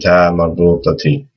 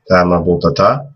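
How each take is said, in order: First: The word ends with a final i vowel. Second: The word ends with a final a vowel. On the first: "with the kasra" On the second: "that would also be the same with the fatha"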